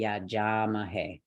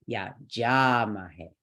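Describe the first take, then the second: First: Said in the usual way. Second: "ja" held long in "Yeah, ja mahe"; stress on JA. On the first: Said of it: "then we get to our next word". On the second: Shown as a demonstration. Teacher showing where the word takes stress, long stressed "ja". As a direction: slowly, lean on "ja" and let "mahe" fall away. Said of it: "That'll take our stress".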